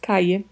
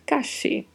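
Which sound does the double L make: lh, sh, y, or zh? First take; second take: y; sh. First: The double L sounds like English y. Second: The double L sounds like English sh. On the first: "O duplo L pode ter som de I" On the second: "E pode ter som de X"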